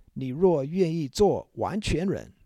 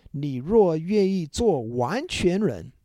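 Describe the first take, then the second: The two takes are said the same way.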